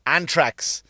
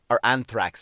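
First: Anthrax said as "ANT-rax", with a hard T and no TH; plain t in anthrax. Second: Anthrax said as "ANTH-rax", with a clear TH sound. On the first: A comic ranting about scares slips and says Anthrax with a T. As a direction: say Anthrax with a plain T where the TH belongs, stressed on the first syllable. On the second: He fixes his slip and says anthrax with a real TH. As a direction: correct himself and say anthrax with a proper TH, stressed on the first syllable. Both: Shown as a demonstration. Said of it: "I'm not pronouncing my T H's".

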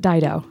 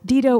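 First: "[name]" said as DIE-doh; DIE-doh pronunciation. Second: "[name]" said as DEE-doh; DEE-doh pronunciation. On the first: Host offering the other option, "[name]" as DIE-doh. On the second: Host unsure of the singer's name, "[name]" as DEE-doh. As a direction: say "[name]" with an EE in the first syllable. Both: Shown as a demonstration. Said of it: "that's my full pronunciation of it".

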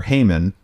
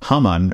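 First: Haman said as HAY-mun; Haman, first syllable like "hay"; alternative pronunciation of Haman. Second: Haman said as HAH-mun; Haman, rhyming roughly with "common"; first pronunciation of Haman. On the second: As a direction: say Haman with an open "ah" first vowel. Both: Shown as a demonstration. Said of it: "Haman, or Haman".

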